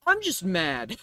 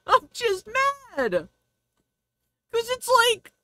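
First: Said in the usual way. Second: Laughing. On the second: Real, not acted.

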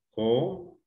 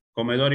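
First: "Comedor" split co... me... dor, long gaps; syllable by syllable. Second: Said in the usual way. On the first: Shown as a demonstration. Teacher separating the word for the class, syllable by syllable. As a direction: break "Comedor" into three isolated syllables. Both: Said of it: "Separar en sílabas".

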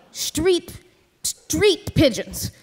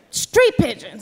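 First: Slow, incredulous repeat, quieter; stunned disbelief. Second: Said in the usual way. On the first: Retold or imitated. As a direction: repeat "Street pigeons" slowly, in disbelief. Narrator repeats Joe's words, stunned.

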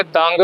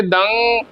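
First: ਦੰਗ closed in the throat with a G; ਦੰਗ said from the throat, "dang-g"; throaty ending. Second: ਦੰ resonating up into the nose; ਦੰ with a humming nasal finish; nasal ending. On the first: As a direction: end ਦੰਗ on a hard G, as a mistake. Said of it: "ਜੇ ਆਪਾਂ ਗਲੇ 'ਚ ਪਾਓ". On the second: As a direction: carry the end of ਦੰ into the nose. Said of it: "ਇਹ ਦੰ ਨੱਕ ਤਾਈਂ ਜਾਊ". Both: Shown as a demonstration.

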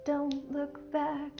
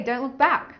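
First: Slow, soft sung refrain; singing. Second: Said in the usual way. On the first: Real, not acted. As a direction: sing it softly, drawing out each word. Sung refrain, then spoken title.

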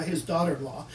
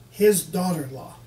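First: Said in the usual way. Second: "his" in "his daughter-in-law" hit hard and louder; stress on his. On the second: Shown as a demonstration. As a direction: lean on the word "his".

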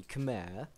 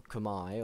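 First: Khmer said kuh-MAIR; first pronunciation. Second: Khmer said kuh-MY; alternative pronunciation. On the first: Caster introducing the civilization, Khmer pronounced kuh-MAIR. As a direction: say Khmer to rhyme with air. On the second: Caster offering another pronunciation, Khmer pronounced kuh-MY. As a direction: say Khmer to rhyme with eye. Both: Shown as a demonstration. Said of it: "or however the hell you pronounce it".

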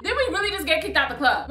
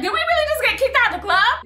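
First: Softer, laughing it off; a quiet laughing echo of the question; laughing repeat. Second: High, rising, stunned question; can't believe they got thrown out; stunned disbelief. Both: Retold or imitated.

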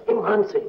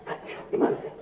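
First: Now say "ईमान से" plainly and firmly; emphatic oath. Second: Breathy whisper, swearing on his faith; whispering the promise; whispered oath. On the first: Repeats the oath aloud. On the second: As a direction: swear it under your breath. Swearing he is in love. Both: Acted.

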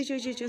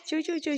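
First: Said in the usual way. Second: Put-on high, squeaky chirping of baby chicks; imitating chick chirps. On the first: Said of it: "सारखं चाललं होतं". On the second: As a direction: peep it out like a hungry chick. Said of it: "चिव, चिव, चिव सारखं चाललं होतं".

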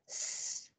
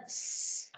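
First: Long unvoiced s, teeth together; hissed s sound. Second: S pushed out with more air; a stronger hissed s. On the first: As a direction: hold a soft s hiss. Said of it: "Hai hàm răng chạm vào nhau". (âm s xì nhẹ) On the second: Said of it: "to ra, đẩy hơi mạnh lên". (đẩy hơi mạnh âm s) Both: Shown as a demonstration.

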